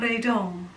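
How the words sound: The name is said with a French accent. The speaker calls it right. "in a French accent that sounds so much better"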